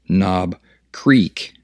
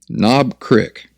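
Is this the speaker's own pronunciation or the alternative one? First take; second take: alternative; own. First: Said in the alternative pronunciation others use. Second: Said in the speaker's own regional pronunciation. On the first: "some of y'all might pronounce that Knob Creek" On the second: "My favorite top shelf bourbon is Knob Creek"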